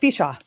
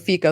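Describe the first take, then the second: First: The name ends with a 'cha' sound. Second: The name ends with a 'ko' sound. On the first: The speaker calls it right. "It's Ficha" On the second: The speaker calls it wrong. "I used to say Fico"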